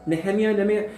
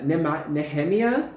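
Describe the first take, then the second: First: Nehemiah said twice as "neh-HEM-ee-uh", firmer and higher; settling the pronunciation. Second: Nehemiah tried as "Nema-", then "Nehemiah" with a questioning rise; unsure pronunciation. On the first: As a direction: repeat Nehemiah a bit higher, more sure of it. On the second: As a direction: sound out Nehemiah hesitantly, ending on an asking rise. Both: Real, not acted. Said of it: "however you pronounce this".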